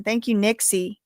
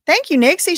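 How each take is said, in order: First: Said in the usual way. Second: Higher and louder, delighted; light up and thank her again with real excitement; excited thanks. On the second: Real, not acted. Thanking a viewer again for gifted memberships, excited.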